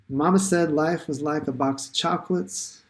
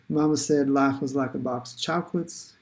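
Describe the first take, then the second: First: It is said in the speaker's usual accent. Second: It is said in a Southern US accent.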